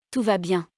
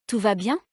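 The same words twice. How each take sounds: First: Bien dropping at the end; falling statement. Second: Bien swooping up at the end; rising question. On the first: Teacher demonstrating intonation descendante, falling statement on bien. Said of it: "ou descendante". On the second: Teacher demonstrating intonation montante, rising question on bien. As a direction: ask Tout va bien, climbing on bien. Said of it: "Faites attention à l'intonation montante". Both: Shown as a demonstration.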